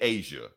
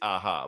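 First: The middle consonant is an English J sound. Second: The middle consonant is a Spanish-style H sound. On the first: The speaker calls it wrong. "I was saying Asia" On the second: The speaker calls it right. "It's Aha"

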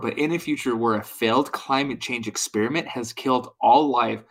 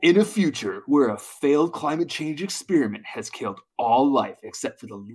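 First: It is read in his normal reading voice. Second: It is read in a dramatic movie-trailer voice.

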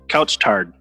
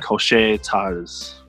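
First: The name is pronounced like English words. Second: The name is pronounced with French sounds. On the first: The speaker calls it wrong. "I'm probably going to say it wrong" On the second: The speaker calls it right. "It's supposed to be like a French pronunciation"

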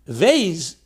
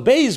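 First: It begins with a soft v sound. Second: It begins with a hard b sound. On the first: The letter has no dot. "without the nekuda makes it weak, soft" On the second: The letter carries a dot. "with a dogosh, which is with an emphasis, is it makes it strong"

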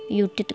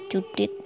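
First: The name begins with a Y sound. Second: The name begins with a J sound. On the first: This is how it might be said abroad. The speaker calls it wrong. "kalau di luar negeri mungkin ada yang pelafalannya Yudit" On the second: This matches the written spelling. The speaker calls it right. "walaupun namanya kan pakai J"

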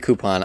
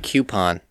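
First: The word begins with a plain 'koo' sound. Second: The word begins with a 'kyoo' sound. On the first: "You say coupon" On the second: "why say coupon? There is no Q in that word"

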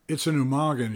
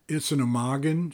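First: The voice falls at the end, sounding confident. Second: The voice rises at the end, like a question.

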